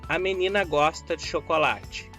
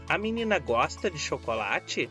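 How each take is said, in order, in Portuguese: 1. Tem uma entonação plana e neutra de declaração. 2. Tem uma entonação interrogativa. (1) "É uma declaração" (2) "É uma pergunta"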